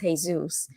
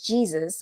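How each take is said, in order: First: The name is pronounced the Spanish way. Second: The name is pronounced the English way. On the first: The speaker calls it right. "when clearly it's Jesus" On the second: The speaker calls it wrong. "English speaking people says Jesus"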